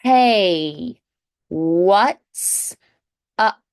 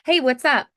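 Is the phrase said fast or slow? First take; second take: slow; fast. First: It is said slowly with exaggerated sounds. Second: It is said quickly and flowing together. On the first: "slow it down, exaggerate the sounds" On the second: "gradually speed it up little by little"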